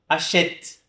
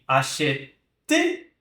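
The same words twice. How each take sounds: First: The final e is silent; it ends on t. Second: The final e is pronounced as a vowel. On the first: The speaker calls it right. "Como se eu não pronunciasse essa letra E" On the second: The speaker calls it wrong. "nem achete"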